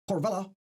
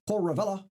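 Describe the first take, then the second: No difference in how they are said.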